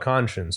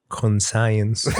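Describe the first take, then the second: First: The ending sounds like 'shuns'. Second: The ending sounds like the word 'science'. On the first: "I know what conscience is" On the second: "Because it's spelled C O N science"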